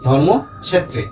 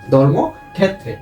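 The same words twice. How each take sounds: First: It is said with Sanskrit pronunciation. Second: It is said with Bengali pronunciation. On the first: "সংস্কৃত উচ্চারণ" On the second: "বাংলা উচ্চারণ"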